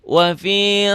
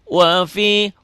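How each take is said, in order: The two takes are said the same way.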